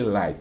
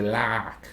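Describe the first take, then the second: First: Said in the usual way. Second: "like" in a country twang, as "lack"; imitated country accent on "like", no glide in the vowel; local country accent. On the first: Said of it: "They don't say like". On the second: Shown as a demonstration. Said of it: "They say like".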